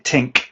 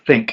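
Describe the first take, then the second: First: The word begins with a plain T sound. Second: The word begins with a soft TH sound. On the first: "with a T sound" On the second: "instead of think"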